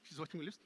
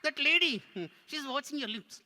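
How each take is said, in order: First: Said in the usual way. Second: High puppet voice; tattling puppet. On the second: Pretend. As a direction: tell on the lady as the puppet. Puppet tattles on audience member.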